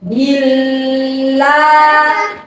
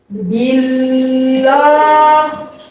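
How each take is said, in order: First: The L is light, with the tongue kept low. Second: The L is heavy, with the tongue raised. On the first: The speaker calls it right. "cara membaca yang benar" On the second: The speaker calls it wrong. "itu membaca lam dengan cara isti'la"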